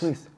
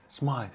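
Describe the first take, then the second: First: The name is said as Smith. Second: The name is said as Smythe. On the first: The speaker calls it wrong. "Why do I say Smith?" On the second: The speaker calls it right. "So I should say"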